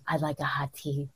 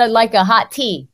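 First: Very low, breathy, hushed husky rasp; husky laryngitis voice. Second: Said in the usual way. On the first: Shown as a demonstration. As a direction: breathe it low like a sultry hotline voice. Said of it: "It's a very nine hundred". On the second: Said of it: "It's like".

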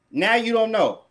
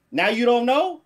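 First: "Now you don't know." falling at the end; accusing statement ending downward on "know"; pointed statement. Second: "Now you don't know?" rising at the end; disbelieving question ending upward on "know"; incredulous question. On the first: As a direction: drop "know" as a settled accusation. Question repeated as falling statement. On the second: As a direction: lift "know" as a challenging question. Question, then same as statement. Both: Real, not acted.

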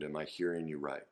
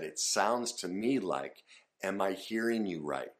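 First: Gentle check-in. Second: Said in the usual way. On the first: Shown as a demonstration. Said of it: "So that would look something like". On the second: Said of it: "I said".

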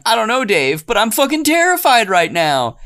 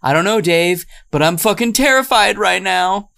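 First: High, panicked mock fright; hammed-up terror, much higher and tight; mock terrified. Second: Mock terrified. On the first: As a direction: squeal it like a terrified monster sister. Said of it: "the monster older sister is saying". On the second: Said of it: "the older sister is saying".

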